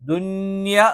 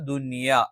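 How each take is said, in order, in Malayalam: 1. n ശബ്ദം അടുത്തുള്ള y യിൽ ലയിക്കുന്നു. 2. y യ്ക്ക് മുൻപുള്ള n ശബ്ദം വ്യക്തമായി നിലനിൽക്കുന്നു. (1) "മിൻ യൗമി എന്ന് പറയുന്നത് പോലെ ദുന്യ എന്ന് പറയാൻ പാടില്ല" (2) "ദുനിയ എന്ന് മാത്രമേ പറയുകയുള്ളൂ"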